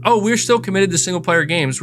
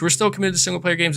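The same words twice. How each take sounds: First: Higher, mocking PR voice; mock corporate line. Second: Rattled off fast and softer; fast dismissive repeat. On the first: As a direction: parrot the PR line with a sneer. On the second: Retold or imitated. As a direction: toss the line off quickly, mockingly. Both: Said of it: "they had to keep saying".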